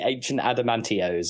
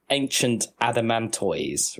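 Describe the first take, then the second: First: The name ends with a 'tee-ose' sound. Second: The name ends like the word tortoise. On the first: The speaker calls it wrong. "they will always say" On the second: The speaker calls it right. "clearly a giant tortoise, and the the name is like"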